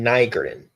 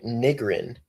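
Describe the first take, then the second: First: Nigrin with a long i, NYE-grin; first syllable of Nigrin rhymes with "eye"; corrected pronunciation. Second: Nigrin with a short first i, NIG-rin; first syllable of Nigrin as "nig", short vowel; guessed pronunciation. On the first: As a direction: say Nigrin starting like "nigh". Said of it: "That's how he said it". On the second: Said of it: "Is that how you say it". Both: Real, not acted.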